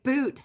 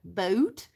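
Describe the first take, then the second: First: "Boot" said plainly with a long oo, slightly raised; "Boot" as one emphatic word, higher and a touch louder; demonstrated pronunciation. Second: "boot" drawn out with a Canadian oh-oo glide; questioning, slow Canadian-accented "boot". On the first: Retold or imitated. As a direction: imitate him pronouncing "Boot" with a plain oo. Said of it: "the pronunciation thing". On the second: Shown as a demonstration. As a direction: stretch "boot" toward "boat", mock Canadian. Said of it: "say that with a Canadian accent".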